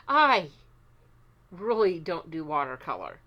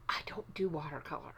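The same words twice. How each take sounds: First: "really" punched out, an emphatic "I" leading in, falling at the end; stress on REALLY. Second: "I don't do watercolor" whispered fast and softly, like a confession. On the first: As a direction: lean hard on "really" to insist. Repeats the line aloud for emphasis. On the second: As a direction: whisper it as a secret aside. Quietly confessing dislike of watercolor. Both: Real, not acted.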